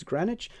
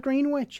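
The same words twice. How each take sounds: First: Greenwich said gren-itch, short e, no w; right Greenwich. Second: Greenwich said green-witch, full green and witch; wrong Greenwich. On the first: Teacher gives the correct gren-itch. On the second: Teacher mocks the wrong green-witch. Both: Shown as a demonstration. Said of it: "it's not Greenwich".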